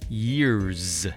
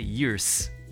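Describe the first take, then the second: First: It ends with a buzzing z sound. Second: It ends with a hissing s sound. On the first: The speaker calls it right. "Sometimes the S makes a Z sound, like years" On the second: The speaker calls it wrong. "Some people say years because you see an S at the end"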